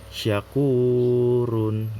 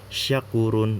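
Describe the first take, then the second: First: The u vowel is held long, two beats. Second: The u vowel is cut short, one beat. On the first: The speaker calls it right. "dibaca panjang sebanyak dua harokat" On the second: The speaker calls it wrong.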